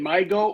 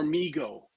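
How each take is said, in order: First: The first vowel sounds like 'my'. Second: The first vowel sounds like 'me'. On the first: "literally my go or me go" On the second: "literally my go or me go"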